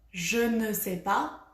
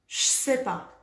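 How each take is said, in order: First: It is said fully with 'ne' pronounced. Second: It is said quickly with the 'ne' dropped. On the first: This is the full form used in writing. "pour écrire, on doit écrire je ne sais pas" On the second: This is casual, fast spoken French. "Si on parle vite, on dit je sais pas. Comme ça"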